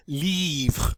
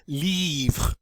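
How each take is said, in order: First: The word stops on the R sound. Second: The same.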